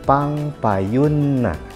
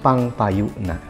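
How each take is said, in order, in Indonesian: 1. Bunyi n-nya ditahan panjang, dobel. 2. Bunyi n-nya pendek, tidak ditahan. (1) "pengucapan yang lain dengan tulisan yang sama bisa diucapkan pangpayunna" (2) "Nunnya atau huruf N-nya tidak ditahan"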